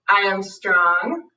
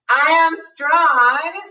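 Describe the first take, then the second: First: It is said at normal, softer volume. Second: It is said louder and with conviction.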